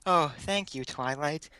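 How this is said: It is said in a put-on Fluttershy voice.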